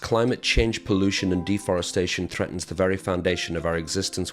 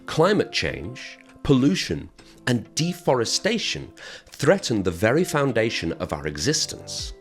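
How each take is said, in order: First: It is spoken very fast with no added pauses. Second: It is spoken more slowly with added pauses. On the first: The speaker calls it wrong. "I was speaking very, very fast there" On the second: The speaker calls it right. "this time we've added some pauses"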